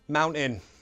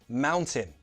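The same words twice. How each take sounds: First: The T is replaced by a glottal stop. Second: The T is a clear, released T sound. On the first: "Now the glottal T" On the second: "First, true T"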